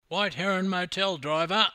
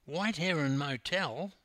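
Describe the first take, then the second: First: Loud, high commanding call; loud lordly order to a driver. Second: Incredulous. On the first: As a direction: call the destination boldly to the cabbie. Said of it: "called Hammer". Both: A narrator's reading.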